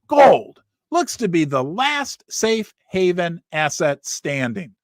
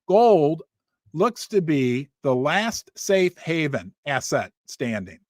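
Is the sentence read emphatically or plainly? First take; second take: emphatically; plainly. First: It is read with more forceful emphasis. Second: It is read plainly with little emphasis.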